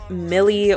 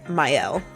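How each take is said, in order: First: The name is said like 'Millie'. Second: The name is said unlike 'Millie'. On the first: The speaker calls it wrong. "I always called it like Millie" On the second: The speaker calls it right. "it's called Mielle"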